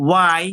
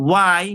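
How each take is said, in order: Both takes have the same delivery.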